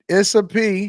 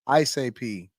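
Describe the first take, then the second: First: The name begins with a short 'iss' sound. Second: The name begins with a long 'ice' sound. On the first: The speaker calls it wrong. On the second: The speaker calls it right.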